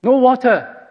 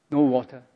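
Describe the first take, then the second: First: High, loud mocking cry of no water; grumbling Israelite griping at Moses; sarcastic complaint. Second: Muttered sarcastic complaint. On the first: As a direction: throw "No water." out as a bitter jab. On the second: Retold or imitated. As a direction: grumble "No water." under the breath. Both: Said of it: "sarcastic and aggressive way".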